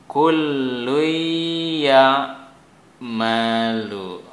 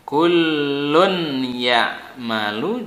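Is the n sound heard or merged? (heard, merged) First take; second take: merged; heard. First: The n sound disappears into the y. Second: The n sound is clearly pronounced before y.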